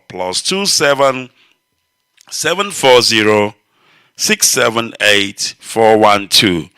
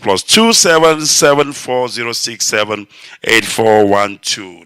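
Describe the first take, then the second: First: The number is read slowly. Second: The number is read at a normal pace.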